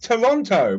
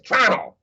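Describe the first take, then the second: First: Every syllable of the name is fully pronounced. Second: Several syllables are dropped, making it very short. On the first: The speaker calls it right. "I pronounce it properly" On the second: The speaker calls it wrong. "they lose half the syllables"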